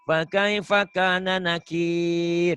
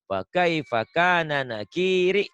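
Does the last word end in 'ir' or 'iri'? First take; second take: ir; iri. First: The last word is cut off, ending in ir. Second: The last word keeps its final vowel, ending iri. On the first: This is the proper reading with a stop at the end. "Itu memang bacanya yang bener itu" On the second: This reads the text exactly as written. "Tapi kita lagi belajar baca apa adanya"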